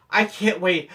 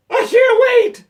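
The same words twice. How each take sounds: First: Said in the usual way. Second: Very high, loud outburst; full-force mock panicked cry; desperate shout. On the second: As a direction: yell it as if about to burst. Feigned desperate outburst to manager.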